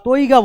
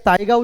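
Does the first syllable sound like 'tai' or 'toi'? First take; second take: toi; tai. First: The first syllable is pronounced like 'toi'. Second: The first syllable is pronounced like 'tai'. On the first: "বা তৈগা বলতে পারো" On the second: "এটাকে তাইগা উচ্চারণ করতে পারো"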